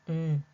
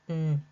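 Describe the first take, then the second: No difference in how they are said.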